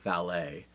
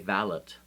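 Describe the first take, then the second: First: The word is pronounced the French way. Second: The word is pronounced the British way. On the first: "I pronounce it the French way" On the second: "if I were British, I would say valet"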